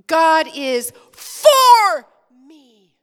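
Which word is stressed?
for. The word for is stressed. "Now we're going to emphasize for"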